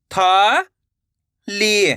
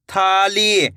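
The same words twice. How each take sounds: First: "था ली" as two separate long syllables; rising था, pause, then ली. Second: Said in the usual way. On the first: Shown as a demonstration. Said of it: "एक एक अक्षर का उच्चारण करके". ("था... ली" रुक-रुक कर) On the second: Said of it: "तो मिलके बन जाएगा".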